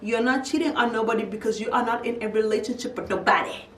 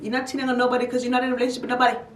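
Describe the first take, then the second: First: The sentence is spoken slowly and deliberately. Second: The sentence is spoken at a normal, quicker pace.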